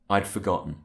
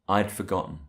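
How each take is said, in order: First: The word had is contracted to I'd. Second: The same.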